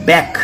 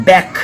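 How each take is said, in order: The two takes are said the same way.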